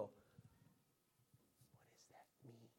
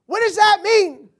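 First: Very soft, low, musing whisper; pondering whisper. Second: Very loud, high, slow outburst; exasperated shout. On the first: Someone puzzling over a riddle, pondering whisper. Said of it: "You go". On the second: Preacher interrupting his pious reading, exasperated high shout. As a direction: burst out baffled, stretching the words. Breaks off mock reading, exclaims. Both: Acted.

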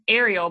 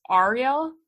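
First: "Ariel" said AIR-ee-el with the front "air" vowel; "Ariel" as AIR-ee-ul, the usual American way; "Ariel" starting with "air" like the mermaid's name; first pronunciation. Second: "Ariel" with an open AH: AH-ree-el, as a question; "Ariel" said AH-reel, checking it's right; "Ariel" opening on an "ah" sound, rising; corrected pronunciation. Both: Shown as a demonstration. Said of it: "but it's Ariel?".

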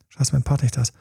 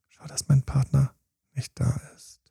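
First: Said in the usual way. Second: Thought trailing into an unvoiced whisper; fading whisper. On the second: Partner at the party, the nagging thought fading to a whisper. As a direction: let the thought sink to a whisper.

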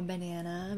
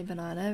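First: "banana" with the American "nan" vowel, ba-NAN-uh; American pronunciation. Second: "banana" with a long "ah", ba-NAH-nuh; South African pronunciation. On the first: Vlogger offering viewers the other version, American pronunciation. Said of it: "but I'm gonna say banana because". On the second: Vlogger choosing her own version, South African pronunciation. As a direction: say "banana" the South African way, middle vowel as in "father". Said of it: "because I'm South African". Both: Shown as a demonstration.

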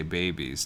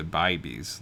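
First: Said in the usual way. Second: "bibies" with an eye vowel in the first syllable; Australian-style vowel. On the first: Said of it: "change the way I say babies to bibies". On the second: Shown as a demonstration. Copying an Australian woman's babies, "bibies" with an eye sound. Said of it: "like that one woman does".

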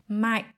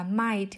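First: "might" ending in a glottal stop, no released t. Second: "might" with the final t clearly released. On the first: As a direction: stop the air in the throat at the end of "might". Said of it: "chặn hơi ở cổ họng". ("might", chặn hơi ở cổ họng, không bật âm t) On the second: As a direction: let the air out on the t of "might". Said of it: "thay vì đọc là might". ("might", bật hơi âm t ở cuối) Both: Shown as a demonstration.

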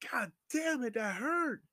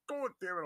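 First: High, louder cry of pain; acted pained yell. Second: High curse without yelling; held-back pain. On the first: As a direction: act out yelling at the hurt. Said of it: "'cause I could yell, like". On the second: Retold or imitated. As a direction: act out a yelp being held in. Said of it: "'cause I could yell".

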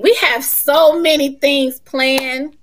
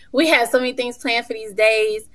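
First: We have so many things planned, slow, louder, higher; slow and emphatic. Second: Said in the usual way. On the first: Shown as a demonstration. Telling listeners about the retreat, slow emphatic.

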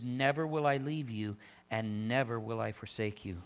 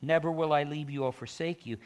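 First: Low, measured weight on both "never"s; two separate promises, each opening on a weighted "never"; emphatic repetition. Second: Said in the usual way. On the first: Shown as a demonstration. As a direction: repeat "never" deliberately in a lowered voice. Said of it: "That's emphasis on that". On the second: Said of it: "He could have just said".

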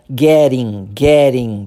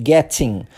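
First: Getting with the T's as a quick tapped R; American getting with a tapped R sound; flapped T. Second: Getting with a clear hard T; getting with crisp T's, not tapped. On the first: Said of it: "transformamos os dois T's ... em R". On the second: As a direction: say getting with a full T. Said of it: "Ao invés de". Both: Shown as a demonstration.

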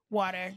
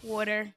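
First: Said in the usual way. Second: "water" in a Jersey-style accent; weird accent take. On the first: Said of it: "did I say it normal". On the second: Shown as a demonstration. Speaker testing how they said it, Jersey accent. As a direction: try "water" with the Jersey vowel. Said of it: "Did I say it weird".

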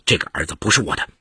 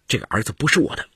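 First: Lower, quick, certain denial; firm insistence. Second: Mildly pleading, quick denial; understated, embarrassed self-defence; awkward protest. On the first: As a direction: state it firmly, pitched low. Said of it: "金杰再三肯定地说". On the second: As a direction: plead "not mine" quickly, a touch helpless. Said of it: "金杰为难地说". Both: A narrator's reading.

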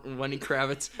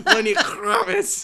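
First: Said in the usual way. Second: a singer's name in a hammed-up Jewish accent, slow and laughing; a jokey Jewish accent on the surname. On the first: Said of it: "I almost said it with". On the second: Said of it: "I almost said it with, like, a Jewish accent".

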